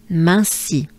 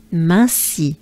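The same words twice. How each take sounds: The two takes are said the same way.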